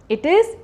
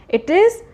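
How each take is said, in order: Both takes have the same delivery.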